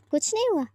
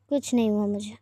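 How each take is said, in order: First: High, sharp disbelieving echo; mother mocking the daughter's denial, incredulous. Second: Low, sulky mumble; sulky daughter, low and short; sulky reply. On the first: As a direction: throw the words back at her in disbelief. Mother echoes daughter's words. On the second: Acted. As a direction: brush it off with a pout. Aaro sulking at dinner.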